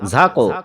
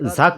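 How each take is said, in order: First: The final q bounces with a short echo. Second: The final q stops flat with no echo. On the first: The speaker calls it right. "ঝাকো এভাবে বলতে হবে আমাদেরকে" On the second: The speaker calls it wrong. "ঝাক বললে হবে না"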